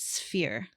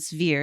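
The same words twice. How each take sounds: First: The sound after the s is unvoiced like f. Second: The sound after the s is voiced like v. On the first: The speaker calls it right. "I say sph. It's not voiced like a V is" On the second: The speaker calls it wrong. "it's not sphere"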